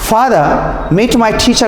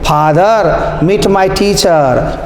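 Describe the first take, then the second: First: It flows smoothly with a light r. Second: It is halting, with pauses and heavy r sounds. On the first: The speaker has had training in spoken English. The speaker calls it right. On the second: The speaker has had no training in spoken English. The speaker calls it wrong.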